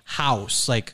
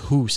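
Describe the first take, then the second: First: It is said with a New York accent. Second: It is said with a Canadian accent. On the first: "she would say house" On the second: "whereas I say hoose as if there's two O's"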